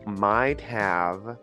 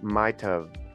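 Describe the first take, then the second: First: The word have is said fully and separately. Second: The word have is reduced to a short of. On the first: The speaker calls it wrong. "I don't say might have" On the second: The speaker calls it right. "I say might have"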